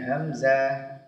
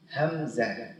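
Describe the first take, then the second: First: A vowel is drawn out long. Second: Each vowel is kept short. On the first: The speaker calls it wrong. "tidak dibaca dengan hamzah" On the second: The speaker calls it right. "tapi hamzah"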